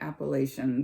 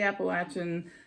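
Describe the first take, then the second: First: It is said the way Northerners usually say it. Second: It is said the way Southerners usually say it. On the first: "Northerners mostly" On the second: "Southerners mostly"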